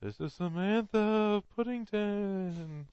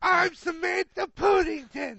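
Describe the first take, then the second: First: Slow, high, hammed-up phantom; ghost voice. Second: Slow, much higher Cockney ghost lady; hammed-up Cockney ghost lady; mock Cockney accent. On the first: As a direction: stretch each word out like a spectral lady. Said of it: "friends on the other side of the gravestone". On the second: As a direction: ham up a Cockney drunk announcing herself. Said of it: "You made her Australian".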